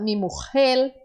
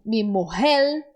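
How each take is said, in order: First: Mujer with a harsh J and a final l; strong J, l ending. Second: Mujer with a soft breathy h and the r as l. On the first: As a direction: say mujer as mojel. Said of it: "eles falam a palavra mujer". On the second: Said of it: "falar palavras como". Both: Shown as a demonstration.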